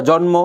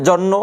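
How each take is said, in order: The two takes are said the same way.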